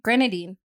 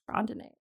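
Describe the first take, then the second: First: The word ends with an "-een" sound. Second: The word ends with an "-ate" sound. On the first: The speaker calls it right. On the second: The speaker calls it wrong.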